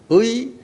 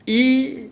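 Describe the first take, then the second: First: The vowel is a gliding ui sound. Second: The vowel is a plain i sound. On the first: "의의 발음은 의" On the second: "이 이렇게 다 세 가지로 발음할 수 있어요"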